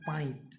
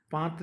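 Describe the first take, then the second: First: "पाइत" with an i glide before the t; Nagpuri reading. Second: Said in the usual way. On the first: Shown as a demonstration. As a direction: read it as paa-it, "पाइत". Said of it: "इसको हम लोग क्या पढ़ेंगे". ("पाइत" में त से पहले इ बोलें) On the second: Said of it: "लिखा हुआ तो देखिए".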